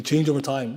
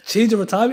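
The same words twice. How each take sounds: First: Said in the usual way. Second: Laughs, then repeats change over time higher and louder; mocking laugh. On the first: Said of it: "What does evolution mean?". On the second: Teacher mocking the atheists' definition, laughing. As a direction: scoff at the phrase through a laugh. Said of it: "What is that?".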